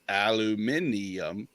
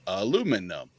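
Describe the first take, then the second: First: It is the British form with five syllables. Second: It is the American form with four syllables.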